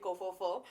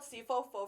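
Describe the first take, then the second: First: The name begins with a K sound. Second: The name begins with an S sound. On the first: Other people say it this way. "they pronounce it as a K" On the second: This is the group's own short name. "we call it Sifo-fo for short"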